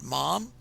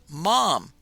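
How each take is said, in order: First: It is said quietly and tentatively. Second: It is said loudly and forcefully.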